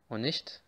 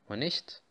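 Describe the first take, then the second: No difference in how they are said.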